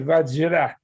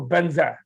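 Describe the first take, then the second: First: It begins with V and has a j-r cluster. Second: It begins with B and has an n-z sound. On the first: It follows the original Sanskrit form. "they don't say Vajra because the J R A sound is hard for them" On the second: It follows the Tibetan way of saying it. "They go Banza"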